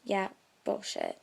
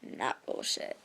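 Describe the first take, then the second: First: Dismissive. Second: Whispered. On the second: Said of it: "And now I'm like". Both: Retold or imitated.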